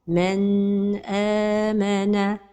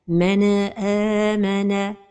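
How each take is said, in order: First: The n sound is held noticeably long. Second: The n is released with an echoing bounce. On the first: "c'est de prolonger son temps" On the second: "c'est al-qalqala de an-nun as-sakina"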